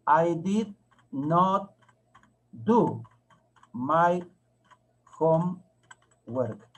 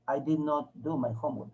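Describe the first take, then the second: First: Very slow, one word at a time; teacher spelling out a sentence word by word; slow dictation. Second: Said in the usual way. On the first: Shown as a demonstration. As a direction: stretch each word, long pause after it. Teacher dictates sentence while writing it.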